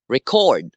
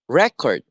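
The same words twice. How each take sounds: First: "record" said re-CORD, second syllable stressed. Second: "record" said REC-ord, first syllable stressed. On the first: Teacher explaining the second word, second-syllable stress on "record". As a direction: lean on the last syllable of "record". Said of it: "the stress is in the second syllable". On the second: Teacher explaining the first word, first-syllable stress on "record". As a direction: hit the first syllable of "record", let the second fall. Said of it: "the stress is in the first syllable". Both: Shown as a demonstration.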